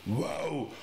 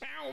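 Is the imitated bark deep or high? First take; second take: deep; high. First: The bark is deep and loud. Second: The bark is high and light. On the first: "die haben alle eine tiefe Stimme. Die ballen aus dem Bauch raus" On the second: "nicht bloß"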